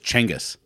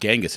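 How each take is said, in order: First: The name begins with a CH sound. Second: The name begins with a J sound. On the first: The speaker calls it right. "it's Chengis" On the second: The speaker calls it wrong. "it's not Genghis"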